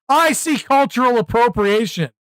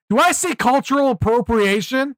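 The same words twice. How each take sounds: First: "I see cultural appropriation" as a falling mock-grave declaration; mock verdict. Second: Higher, rising, mock-shocked question; mock gasp question. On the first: Streamer mocking outrage culture, mock-solemn verdict. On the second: Streamer mocking outrage culture, mock-shocked question. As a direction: ask "Do I see cultural appropriation?" in mock horror.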